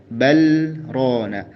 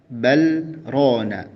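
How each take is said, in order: Both takes have the same delivery.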